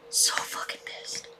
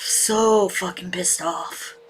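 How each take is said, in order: First: Softer, angry whisper; real seething whisper; whispered fury. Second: Slow, seething and pressed; slow muttered fury. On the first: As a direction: hiss it under your breath. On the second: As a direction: let the anger simmer slowly. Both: Real, not acted.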